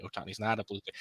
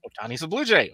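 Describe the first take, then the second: First: Much softer, lower take-back; mock deflated retraction. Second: Lifted mock announcement, BLUE swooping up; mock breaking news. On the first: Replaying Saturday's retracted rumor to co-hosts, mock deflated retraction. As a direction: drop it away like a let-down correction. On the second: Replaying Saturday's conflicting reports to co-hosts, mock breaking news. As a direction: announce it like a fresh rumor, peaking on "Blue".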